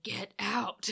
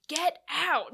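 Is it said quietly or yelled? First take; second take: quietly; yelled. First: It is said in a plain, quieter voice. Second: It is yelled loudly.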